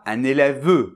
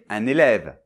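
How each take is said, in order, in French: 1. Le E final est prononcé. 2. Le E final est muet. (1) "Je dis pas un élève" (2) "je vais dire un élève"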